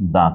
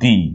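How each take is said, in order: First: The word ends in a short 'uh' vowel. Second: The word ends in a long 'ee' vowel. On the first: The next word starts with a consonant. "যেখানে কার লিখছিলাম সেটাই হবে কিন্তু দা কার" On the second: The next word starts with a vowel. "যেটা egg লিখছিল ওটা হবে দি"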